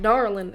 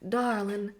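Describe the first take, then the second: First: It is said in a Texas accent. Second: It is said in an Alabama or Georgia accent. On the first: "darling is more like Texas" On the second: "darling is more like Alabama, Georgia"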